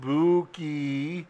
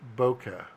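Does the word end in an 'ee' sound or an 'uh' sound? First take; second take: ee; uh. First: The word ends in an 'ee' sound. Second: The word ends in an 'uh' sound. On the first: The speaker calls it wrong. "It's not pronounced Buki" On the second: The speaker calls it right. "It's pronounced Boca"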